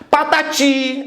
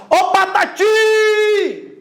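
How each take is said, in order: First: Said in the usual way. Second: High shout with a very long "ti"; calling out. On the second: Shown as a demonstration. Teacher calling old friend Patati, calling out. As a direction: hail a friend far off, stretching "Patati" at the end. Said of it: "Você vai chamar".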